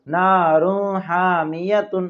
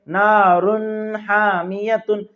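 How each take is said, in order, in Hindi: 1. n नाक में छिपा हुआ है, साफ़ नहीं निकलता। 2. n को नाक की गुनगुनाहट के साथ खींचा जाता है। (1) "तनवीन की आवाज को जाहिर नहीं करते बल्कि नाक में छुपाते" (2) "कुछ लोग यहाँ पर गुन्ना करते हैं"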